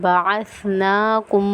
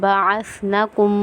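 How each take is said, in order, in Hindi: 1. n के बाद का स्वर खींचकर लंबा बोला जाता है। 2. n के बाद का स्वर छोटा है। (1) "खड़े ज़बर को हम खींचेंगे" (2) "कुछ लोग पढ़ते हैं बअसनाकुम, तो ये गलत हो जाएगा"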